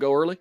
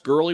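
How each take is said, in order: First: The first syllable sounds like 'go', then 'early'. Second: The first syllable sounds like 'gur', no O. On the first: "Go early. All right, we'll go with that" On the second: "I think it's Gurley with a silent O"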